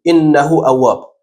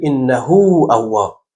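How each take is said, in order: First: «انه اواب» with the ha of انه kept short; short ha, wrong way. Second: «انه اواب» slowly with the ha of انه drawn long; stretched ha, right way. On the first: Teacher shows the incorrect unstretched reading. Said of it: "نمیگیم". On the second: Teacher shows the correct stretched reading. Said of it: "میگیم". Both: Shown as a demonstration.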